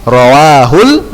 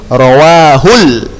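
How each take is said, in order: No difference in how they are said.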